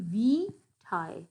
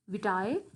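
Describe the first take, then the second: First: The marked vowel is long. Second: The marked vowel is short. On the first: The speaker calls it right. "It means that it will be a long vowel" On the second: The speaker calls it wrong. "It won't be vitae"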